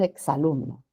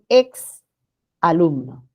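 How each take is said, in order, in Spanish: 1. La x se une suavemente a la vocal siguiente. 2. El prefijo se separa con una pausa. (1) "Cuando hablamos, decimos es un exalumno" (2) "Nadie dice es un ex alumno"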